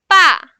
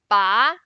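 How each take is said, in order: First: The pitch falls sharply from high to low. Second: The pitch rises from middle to high. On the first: It means that. "the fourth one" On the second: It means to pull. "The second one"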